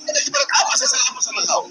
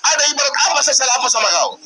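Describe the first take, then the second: First: Pitched-up angry repeat; much higher pitch. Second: Said in the usual way. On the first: Real, not acted. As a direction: question jumps up high and thin. Heated argument, repeated question.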